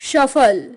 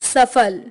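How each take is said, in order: First: It is said with a Bengali regional accent. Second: It is said with standard Hindi pronunciation. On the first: "बंगाली उच्चारण" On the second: "हिंदी उच्चारण"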